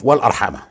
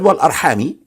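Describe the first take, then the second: First: The word ends with an 'a' vowel. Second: The word ends with an 'i' vowel. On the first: This is the more widely known reading of the verse. "instead of wal arhama" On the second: This is an alternative transmitted reading of the verse. "he said wal arhami"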